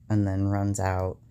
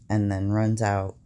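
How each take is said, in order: Both takes have the same delivery.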